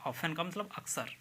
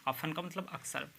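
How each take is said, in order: The two takes are said the same way.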